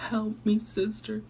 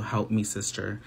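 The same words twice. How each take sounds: First: High, slow whiny fake sob; mock crying. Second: Said in the usual way. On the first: Mocking Rosy begging her sister, whiny fake crying. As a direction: hams up a fake tearful plea. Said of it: "Le está como llorando". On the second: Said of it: "y pues ella está diciendo".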